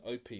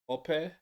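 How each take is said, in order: First: The name is said in an English way. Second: The name is said in a Nigerian way. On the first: This is how people in England might say it. The speaker calls it wrong. "we might say in England Opie or something, but that's incorrect apparently" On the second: This is the traditional form of the name. The speaker calls it right. "traditionally it's pronounced Ope. There's slight different sort of intonation there"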